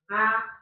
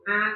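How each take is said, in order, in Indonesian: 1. Vokalnya keluar lewat mulut. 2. Seluruh suku kata keluar lewat hidung.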